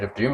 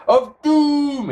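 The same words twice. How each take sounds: First: Said in the usual way. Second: "Doom" much higher and drawn out; dramatic DOOM. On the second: Acted. Host reading a viewer's comment, dramatic long "Doom". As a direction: stretch "Doom" into a high, mock-ominous hold.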